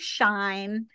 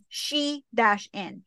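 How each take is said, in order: First: It is one syllable rhyming with line. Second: It is two syllables, she then in. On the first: The speaker calls it wrong. "some people say shine" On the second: The speaker calls it right. "they actually messaged us back that it's she-in"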